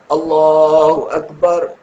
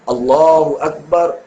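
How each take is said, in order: The two takes are said the same way.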